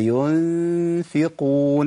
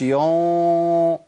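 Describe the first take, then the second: First: "ينفقون" with a long, thin hum on the first ن; light ghunnah. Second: Long rounded, dark hum on "يون"; wrongly heavy ghunnah. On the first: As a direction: hold the ن lightly, unrounded, before the ف of "ينفقون". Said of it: "أنا داخل على فاء مرققة". (غنة مرققة ممدودة في "ينفقون") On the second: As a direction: stretch "يون" slowly with a thickened nasal hum. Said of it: "ما أقولش". (غنة مفخمة خطأ في "يون") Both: Shown as a demonstration.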